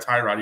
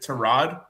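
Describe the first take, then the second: First: The first syllable sounds like 'tie'. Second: The first syllable sounds like 'tar'. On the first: This is the name he goes by publicly. "he he still goes by Tyrod" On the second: This is how his mother says his name. "the real pronunciation of his name is Tarad"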